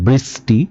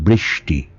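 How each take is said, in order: First: The middle consonant is a plain s sound. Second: The middle consonant is an sh sound. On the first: The speaker calls it wrong. "আপনি বলছেন বৃষ্টি, আপনি এস বলছেন" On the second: The speaker calls it right. "আমি বলছি বৃষ্টি, আমি এস এইচ বলছি"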